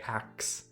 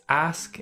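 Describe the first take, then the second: First: The word ends with a k then s sound. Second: The word ends with an s then k sound. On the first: Some speakers swap the two sounds. "some people say ax and they switch it" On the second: This is the standard form. "it's ask in standard English"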